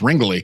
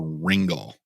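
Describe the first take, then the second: First: The name ends on an 'ee' sound. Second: The name ends on an 'l' sound. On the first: The speaker calls it right. "but it's Ringley" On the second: The speaker calls it wrong. "I think I mispronounced her name originally"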